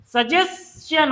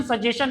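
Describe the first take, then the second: First: Slow, careful सजेशन with the s sounded, sa-jes-chan; correct pronunciation. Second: सजेशन said the wrong way, as sa-je-shan with a plain sh and no s sound; wrong pronunciation. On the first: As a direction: spell out सजेशन slowly as sajes-chan, letting the s be heard. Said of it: "इसका pronunciation होता है". (सजेशन का सही उच्चारण, धीरे, एस की ध्वनि के साथ) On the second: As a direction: say सजेशन as sajeshan, dropping the s before the t. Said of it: "इसका प्रोनाउंसिएशन सजेशन नहीं होता". (सजेशन का गलत उच्चारण, बिना एस की ध्वनि के) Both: Shown as a demonstration.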